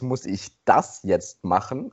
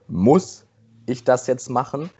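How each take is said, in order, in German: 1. Das Wort das ist betont. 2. Das Wort muss ist betont. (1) "Die nächste Betonung ist" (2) "die erste Betonung ist"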